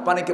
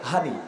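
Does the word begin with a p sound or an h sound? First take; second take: p sound; h sound. First: The word begins with a clear p sound. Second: It is said Noakhali style, starting with h.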